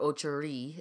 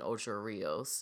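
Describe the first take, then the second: First: The name is said with a local Jamaican pronunciation. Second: The name is said in a standard, non-local way.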